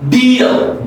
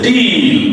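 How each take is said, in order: First: The starting d sound is crisp and clear. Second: The starting d sound is weak and unclear. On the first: The speaker calls it right. "That's very clear" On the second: The speaker calls it wrong. "You don't say deal"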